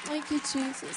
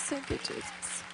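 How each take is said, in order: First: Said in the usual way. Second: Breathed, slower, barely voiced thanks; whispered prayer. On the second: Real, not acted. Quiet prayer after scripture.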